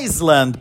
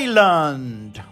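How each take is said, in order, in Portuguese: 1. Um som de S é pronunciado no meio. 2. Nenhum som de S é pronunciado no meio. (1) "que muita gente fala Iceland" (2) "a gente suprime a letra S e fala Island"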